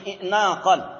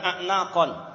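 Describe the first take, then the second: First: The word begins with an 'i' vowel. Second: The word begins with an 'a' vowel. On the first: "ada yang membaca dengan kasrah" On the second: "dibacanya a'naq"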